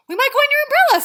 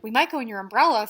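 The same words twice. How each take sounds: First: Much higher and louder, nearly shouting the repeat; insistent Pooh. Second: Reading Pooh's line. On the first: Reader voicing Pooh's third insistent repeat, near shout. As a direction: Pooh losing patience and insisting. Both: Acted. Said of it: "said Pooh".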